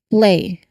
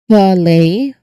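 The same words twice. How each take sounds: First: The p flows straight into l without a vowel. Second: A short vowel sound separates the p and l. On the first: The speaker calls it right. "Remove that vowel sound in between. We will say play" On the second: The speaker calls it wrong. "It's not play. We do not want to put a vowel sound in between the two consonant sounds"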